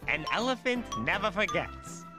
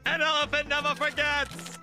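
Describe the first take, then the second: First: It is said at normal volume. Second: It is shouted loudly.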